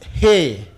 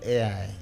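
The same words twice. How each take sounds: First: It is said the Ibadan Yoruba way. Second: It is said the plain, non-Ibadan way.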